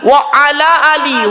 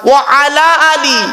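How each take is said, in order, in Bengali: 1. 'wa ala' আলাদা করে বলা, শেষ শব্দটি 'ee' দিয়ে শেষ হয়েছে। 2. 'wa ala' আলাদা করে বলা, শেষ শব্দটি 'ee' দিয়ে শেষ হয়েছে।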